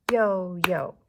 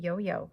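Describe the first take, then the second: First: "Yo-yo" in two loud beats, yo-yo; clapped-out syllables. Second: Said in the usual way. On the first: Shown as a demonstration. Teacher clapping out yo-yo with pupils, "Yo-yo" loudly syllable by syllable. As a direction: punch both syllables of "Yo-yo" on claps. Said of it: "Let's clap out yo-yo". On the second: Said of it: "Let's clap out".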